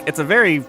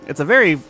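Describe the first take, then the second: No difference in how they are said.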